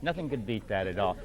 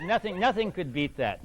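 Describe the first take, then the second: First: Softer, lower afterthought; quiet repeat. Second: Said in the usual way. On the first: Real, not acted. Quieter repeat of same line.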